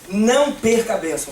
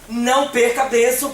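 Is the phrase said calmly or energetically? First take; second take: calmly; energetically. First: It is said in a calmer, plainer way. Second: It is said with more energy and enthusiasm. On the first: "fala assim, ó" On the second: "Agora fala com mais ânimo, fala assim"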